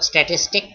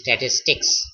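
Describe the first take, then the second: First: The word ends without a final s sound. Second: The word ends with a final s sound. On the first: The speaker calls it wrong. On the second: The speaker calls it right.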